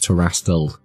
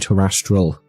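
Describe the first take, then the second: First: The word is said without an extra R sound. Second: The word is said with an extra R sound. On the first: The speaker calls it right. "I'm pretty sure it's terrestrial" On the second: The speaker calls it wrong. "I always want to whip an R up in there. I always want it to be terrestrial, but it's not"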